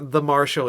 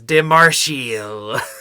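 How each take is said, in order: First: The phrase is said in a plain accent. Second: The phrase is said in a put-on accent. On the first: "Or when he says Mar- the Marshal" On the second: "he says De Marshal"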